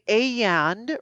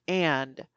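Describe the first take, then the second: First: "a and" with the vowel stretched long; feminine drawn-out and. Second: "and" clipped short, low and soft; short masculine and. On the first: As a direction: stretch "a and" into a slow sing-song vowel. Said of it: "Women will elongate their words, especially vowels". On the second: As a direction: say "and" quick and low, no stretch. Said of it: "I would talk just in more of a monotone voice". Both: Shown as a demonstration.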